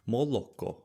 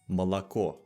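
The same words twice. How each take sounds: First: The unstressed o's sound like o. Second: The unstressed o's sound like ah. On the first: This is the Ukrainian pronunciation. "in Ukrainian would sound like" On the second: This is the Russian pronunciation. "unstressed O's make an ah"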